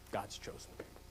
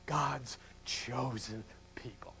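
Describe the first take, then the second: First: Hushed whisper, under the breath. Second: Quiet, slow. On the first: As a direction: breathe it out as a bitter secret. Repeated as whisper. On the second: Repeated for effect, softer. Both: Acted.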